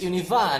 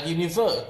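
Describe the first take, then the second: First: UNIVA with open AH, no R; British R-less UNIVA, stressed last syllable. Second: UNIVER with ER ending; American univer. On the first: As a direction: end UNIVA on an open "vah". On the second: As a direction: end UNIVER on "ver", not "vah". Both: Shown as a demonstration. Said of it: "not univer".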